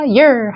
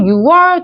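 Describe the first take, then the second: First: The word is said as one short syllable. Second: The word is said as two separate syllables. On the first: The speaker calls it right. "year 하셔야 돼요" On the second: The speaker calls it wrong. "유월 두 사운드 아니라"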